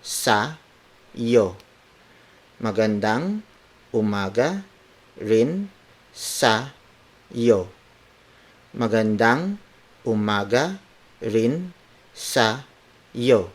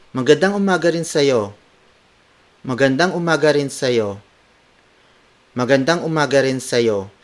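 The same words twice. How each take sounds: First: Slow, every word on its own; careful dictation with pauses between words. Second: Fluent, slightly lifted cheery greeting. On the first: Teacher breaking down good morning to you, word for word. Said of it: "word for word". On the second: Teacher showing good morning to you too, cheery. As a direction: return the greeting in one cheerful run. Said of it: "apply it in a cheery tone". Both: Shown as a demonstration.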